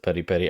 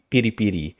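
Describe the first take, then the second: First: Each word starts with an 'eh' vowel sound. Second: Each word starts with an 'ee' vowel sound. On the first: The speaker calls it wrong. "people pronounce it peri peri" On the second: The speaker calls it right. "we would say piri pi- piri piri"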